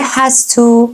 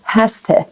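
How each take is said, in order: First: First "has to" with a full "too"; full form. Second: "has to" as "hasta"; reduced form. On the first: Teacher naming the phrase before reducing it, full form. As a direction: say "has to" carefully, unreduced. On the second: Teacher showing how Americans say it, reduced. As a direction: weaken "to" in "has to" to "tuh". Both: Shown as a demonstration.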